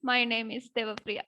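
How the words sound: It is said in a very sad voice. "ഭയങ്കര sad ആയിട്ട് പറയണം"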